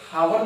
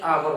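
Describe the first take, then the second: First: The word begins with an audible h sound. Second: The word begins directly with a vowel sound. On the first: The speaker calls it wrong. "इसे हावर नहीं बोलते हैं" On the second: The speaker calls it right. "इसे आवर बोलते हैं"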